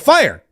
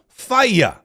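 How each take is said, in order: First: The word is said as one syllable. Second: The word is said as two syllables. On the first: The speaker calls it wrong. "I was saying it wrong my whole life" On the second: The speaker calls it right. "it's a two syllable word"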